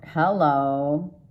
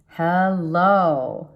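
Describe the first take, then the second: First: Said in the usual way. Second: Louder, lingering hello with a falling finish; welcoming a new love with a teasing hello; drawn-out flirty hello. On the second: Pretend. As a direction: greet a new lover with a knowing drawl. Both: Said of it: "I don't know why I have to say it like that".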